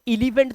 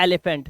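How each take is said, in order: First: एलिफेंट wrongly begun with an 'ee' sound, "ee-lifent"; mock misreading of एलिफेंट with 'i' first; deliberate mispronunciation. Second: एलिफेंट starting with an open 'e' sound; teacher models एलिफेंट with an open first vowel; correct pronunciation demo. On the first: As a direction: say एलिफेंट as "ili-fent". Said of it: "तो नहीं बोलते". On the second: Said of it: "हम बोलते हैं". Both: Shown as a demonstration.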